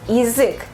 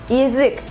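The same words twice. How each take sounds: The two takes are said the same way.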